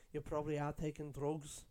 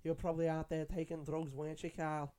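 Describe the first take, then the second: First: Imitating Scouse grandma. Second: Put-on a light Scouse grandma accent, a touch higher and teasing; mock a Scouse grandma needling her grandson about drugs; imitating Scouse grandma. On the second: Scouse grandma teasing grandson Carl about drugs, lightly imitated Scouse accent. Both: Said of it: "the way she said drugs".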